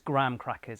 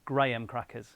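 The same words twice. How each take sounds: First: Graham is said as a single syllable. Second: Graham is said with two syllables. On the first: This is how Americans say it. "one syllable with an American accent" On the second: This is how people in the UK say it. "that word for us is two syllables"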